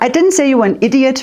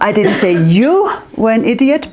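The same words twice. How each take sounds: First: The stress falls on the word idiot. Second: The stress falls on the word you. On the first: A different insult was used. "maybe I said crazy, but not idiot" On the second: It was said about other people. "but your friends, they are not very clever"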